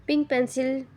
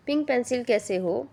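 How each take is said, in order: First: Teasing sing-song nickname, higher; mischievous. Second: Teasing question with a rise; mischievous. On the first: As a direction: tease the boy with a silly name. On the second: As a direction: keep up the tease. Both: A narrator's reading. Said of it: "शरारती लहजे में बोला".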